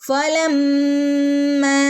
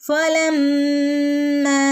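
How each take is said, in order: No difference in how they are said.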